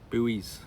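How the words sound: The word is said in an American way.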